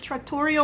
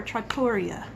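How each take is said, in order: First: "trattoria" said trat-TOR-ee-oh; "trattoria" with a final o; trattoria ending in -o. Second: "trattoria" said trat-TOR-ee-ah; "trattoria" with a final a; trattoria ending in -a. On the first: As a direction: end "trattoria" on an oh sound. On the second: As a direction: end "trattoria" on an ah sound. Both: Shown as a demonstration. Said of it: "Is it trattoria or trattoria?".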